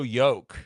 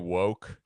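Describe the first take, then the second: First: The word begins with a Y sound. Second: The word begins with a W sound. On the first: The speaker calls it wrong. "you don't know how to pronounce it" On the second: The speaker calls it right. "Are you trying to say woke?"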